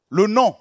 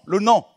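Both takes have the same delivery.

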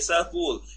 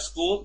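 First: An extra vowel splits the opening consonant cluster. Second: The word starts directly with the consonant cluster. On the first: "or they say sakool" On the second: "Instead of school"

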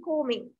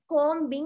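First: The b sound is silent in the word. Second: The b sound is pronounced in the word. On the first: The speaker calls it right. "it should be combing" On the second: The speaker calls it wrong. "Combing නෙමෙයි"

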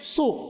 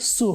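First: The s sound is emphatic and heavy. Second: The s sound is plain and light. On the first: The speaker calls it right. "সু সাদ পেশ সু" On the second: The speaker calls it wrong. "সিন পেশ সু হয়ে গেল"

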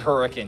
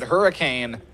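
First: The town name is said the local way. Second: The town name is said the non-local way. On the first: The speaker is from the area. The speaker calls it right. "Strictly Hurricane" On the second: The speaker is not from the area. The speaker calls it wrong. "If they pronounce it Hurricane, they're not from here"

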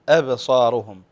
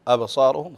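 First: The opening hamza is said light and thin. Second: The opening hamza is said heavy and thick. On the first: The speaker calls it right. "فنرقق الهمزة" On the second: The speaker calls it wrong. "أبصارهم خطأ، فنقلقل نفخم الهمزة"

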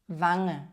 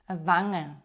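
Both takes have the same delivery.

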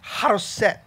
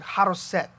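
First: It is said with a plain English accent. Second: It is said with a Hebrew accent. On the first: "it's a difficult word to say" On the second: "You have to say it with a Hebrew accent"

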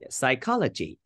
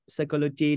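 First: The stress is on the second syllable. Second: The stress is on the first syllable. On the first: The speaker calls it right. "So the stress is put on the second syllable" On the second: The speaker calls it wrong. "try not to say"

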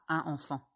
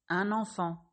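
First: No linking sound joins the two words. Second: A linking N sound joins the two words. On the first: The speaker calls it wrong. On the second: The speaker calls it right.

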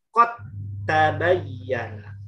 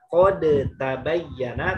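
First: The d merges into a doubled t sound. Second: The d is sounded separately before the t. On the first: The speaker calls it right. "tapi kot tabayyana" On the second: The speaker calls it wrong. "Bukan kode tabayyana"

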